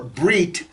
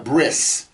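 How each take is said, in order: First: The word ends with a T sound. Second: The word ends with an S sound. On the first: "pronounce the T sound at the end of a word" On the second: "they'll call it a bris"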